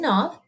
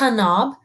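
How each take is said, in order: First: The K is silent; the word starts with N. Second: The K is sounded before the N. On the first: The speaker calls it right. "With the silent K, ... we just say knob" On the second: The speaker calls it wrong. "we don't say knob"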